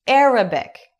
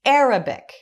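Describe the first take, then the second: The two takes are said the same way.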